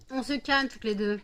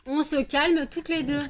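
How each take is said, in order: First: Said in the usual way. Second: Higher, louder, slower command; firm louder order. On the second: Real, not acted. Scene: owner telling two dogs to calm down, louder and slower. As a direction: stretch it out to stop them.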